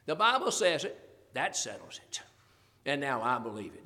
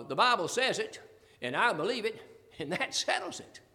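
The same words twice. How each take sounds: First: Corrected saying, ending low and settled; firm correction. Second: Quoted slogan with a raised ending; quoted saying. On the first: Shown as a demonstration. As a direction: start up, then drop much lower on "that settles it". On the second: Retold or imitated. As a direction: recite it as another person's slogan. Quotes saying in wrong order.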